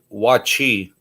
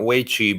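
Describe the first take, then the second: First: The first syllable has an 'ah' vowel. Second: The first syllable has an 'ay' vowel. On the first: The speaker calls it right. "but wachi" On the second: The speaker calls it wrong. "I would say not wei chi"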